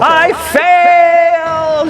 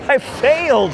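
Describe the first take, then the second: First: The voice has a lot of echo. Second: The voice has little or no echo.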